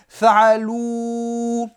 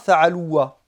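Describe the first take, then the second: First: The word ends on a plain long 'oo'. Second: The word ends with an extra 'a' sound. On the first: The speaker calls it right. "Le alif se prononce pas" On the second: The speaker calls it wrong. "on ne dit pas fa'aloua"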